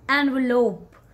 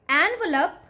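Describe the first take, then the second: First: The last syllable sounds like lope. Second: The last syllable does not sound like lope. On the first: The speaker calls it right. "Lope is there" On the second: The speaker calls it wrong. "don't call it envelope"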